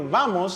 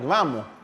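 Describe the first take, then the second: First: The final S is pronounced as a clear s. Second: The final S is softened to a breathy h.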